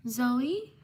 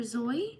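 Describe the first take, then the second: First: "Zoe" as ZOH-ee, rising; "Zoe" offered questioningly as ZOH-ee; first pronunciation of Zoe. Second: "Zoe" as ZOY, rising; "Zoe" as a questioning second guess, ZOY; alternative pronunciation of Zoe. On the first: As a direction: say "Zoe" in two syllables, ZOH-ee. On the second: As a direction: say "Zoe" to rhyme with boy. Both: Shown as a demonstration. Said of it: "Zoe or Zoe".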